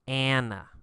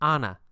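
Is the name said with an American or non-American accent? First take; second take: American; non-American. First: The name is said with an American accent. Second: The name is said with a non-American accent.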